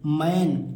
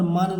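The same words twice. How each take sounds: First: मैन with an open "ae" as in English "man"; AI vowel in मैन. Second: मन said with short "uh", like "mun"; wrong reading मन, short central vowel; mispronounced short vowel. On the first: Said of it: "ऐन पढ़ेंगे". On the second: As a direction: say मन to rhyme with "fun". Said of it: "मन नहीं पढ़ेंगे". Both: Shown as a demonstration.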